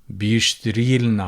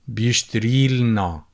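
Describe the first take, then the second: First: The vowel before the l sound is dropped. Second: The same.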